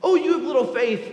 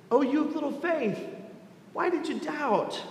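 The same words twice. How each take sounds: First: Louder, ringing call with weight on Oh; proclaiming. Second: Soft, gentle rebuke, a touch higher; tender. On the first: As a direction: preach it out boldly to the room. Repeated call in sermon. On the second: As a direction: speak it tenderly, like comforting a frightened friend. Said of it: "and says tenderly". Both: Acted.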